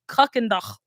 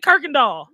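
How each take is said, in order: First: It is said in a German way, ending in 'ach'. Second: It is said as Kirkendall, ending in 'all'. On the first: This is the official, German-style pronunciation. "It's pronounced Kuckendach. Like it's German" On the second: This is how locals actually say it. "we say Kirkendall"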